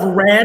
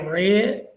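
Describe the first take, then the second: First: It is said without a country accent. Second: It is said with a Western, country accent.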